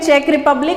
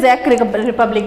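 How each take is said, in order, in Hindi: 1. पहला शब्द ch ध्वनि से शुरू होता है। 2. पहला शब्द z ध्वनि से शुरू होता है। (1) "हिंदी में चेक रिपब्लिक" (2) "इंग्लिश में ज़ेक रिपब्लिक बोला जाता है"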